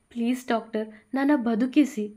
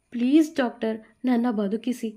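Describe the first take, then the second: First: Repeated pleading. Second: A touch of begging on please doctor; mildly pleading for her life. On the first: Bhuvi begging the doctor a second time, pleading. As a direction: beg again, more desperate at the end. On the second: Bhuvi begging the doctor to save her, pleading. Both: Acted. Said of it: "ಮತ್ತೆ ಕೈ ಮುಗಿದು ಬೇಡಿಕೊಂಡಳು".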